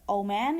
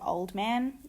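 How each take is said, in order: First: A sound between the words is dropped. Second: Every sound between the words is kept. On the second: "instead of"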